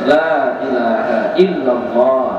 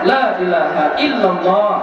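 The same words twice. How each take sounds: First: The phrase is said at a careful, unhurried pace. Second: The phrase is said quickly but still clearly. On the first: "bacalah bagus-bagus" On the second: "Boleh cepat-cepat"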